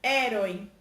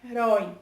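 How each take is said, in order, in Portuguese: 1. A tônica está na primeira sílaba. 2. A tônica está na segunda sílaba. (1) "a sílaba que é tônica é a primeira sílaba" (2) "A segunda sílaba que a gente dá ênfase"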